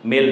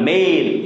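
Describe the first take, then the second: First: The vowel sounds like the e in bed. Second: The vowel sounds like the ai in day. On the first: The speaker calls it right. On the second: The speaker calls it wrong.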